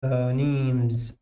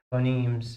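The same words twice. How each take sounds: First: "Phonemes" stretched out slowly; model pronunciation. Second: Said in the usual way. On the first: Shown as a demonstration. Teacher to students: slow model "Phonemes". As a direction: lengthen "Phonemes" for the class. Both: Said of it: "شوفوا".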